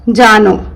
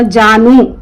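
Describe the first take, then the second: First: जानो said with a final o sound; o ending. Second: जानू said with a final u sound; u ending. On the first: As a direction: end जानो on o. (जानो, ओ के साथ) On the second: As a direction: end जानू on u. (जानू, ऊ के साथ) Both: Shown as a demonstration. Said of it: "pronunciation दो होगा".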